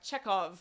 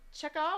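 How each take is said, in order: First: The name is said with Polish-style pronunciation. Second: The name is said without Polish-style pronunciation.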